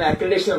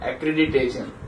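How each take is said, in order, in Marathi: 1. मधला भाग गळतो, त्यामुळे चार अक्षरे होतात. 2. प्रत्येक अक्षर उच्चारले जाते, त्यामुळे पाच अक्षरे होतात. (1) "बरेच जण अॅक्रिडेशन म्हणतात" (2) "त्याचा मूळ उच्चार आहे अॅक्रिडिटेशन"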